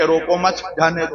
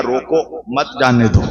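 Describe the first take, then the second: First: "روکو مت" as one unit, break, then "جانے دو"; group مت with روکو, pause before جانے; pause after مت. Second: "روکو", break, then "مت جانے دو" as one unit; pause after روکو. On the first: Watchman mishears the order as let him go, pause after مت. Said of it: "وہ یہ سمجھا کہ مولانا کہہ رہے ہیں". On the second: Preacher corrects watchman, stop him, pause after روکو. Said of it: "بے وقوف، میں نے کہا". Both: Shown as a demonstration.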